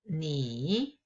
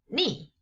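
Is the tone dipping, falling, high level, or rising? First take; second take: dipping; falling. First: The pitch dips low and then rises. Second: The pitch falls sharply from high to low.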